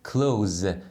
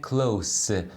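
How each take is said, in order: First: The word ends with a buzzing z sound. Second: The word ends with a hissing s sound. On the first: It means to shut something. "اونی که فعل هست تلفظ میشه close یعنی بستن" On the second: It means near. "اونی که صفت یا قید میتونه باشه تلفظ میشه close یعنی نزدیک"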